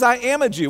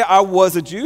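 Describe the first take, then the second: First: "am" pressed and held as the present-tense claim; stress on am. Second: "was" leaned on, the past tense held out as the wrong version; stress on was. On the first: Preacher gives Paul's actual present-tense words, stressing "am". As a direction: land firmly on "am", falling tune. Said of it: "He says". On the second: Preacher contrasts the wrong tense for the congregation, stressing "was". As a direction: press the word "was" so it sounds like the past. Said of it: "He doesn't say". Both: Shown as a demonstration.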